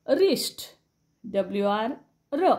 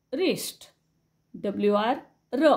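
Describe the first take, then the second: No difference in how they are said.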